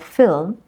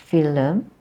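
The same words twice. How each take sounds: First: The l and m are said together. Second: A vowel is inserted between l and m.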